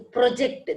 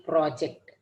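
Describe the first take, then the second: First: ProJECT, weight on JECT; stress on second syllable. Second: PROject, weight on the PRO; stress on first syllable. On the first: Teacher's example of "project" as a verb, JECT stressed. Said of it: "This is verb". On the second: Teacher's example of "project" as non-verb, PRO stressed. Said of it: "the first one is stressed". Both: Shown as a demonstration.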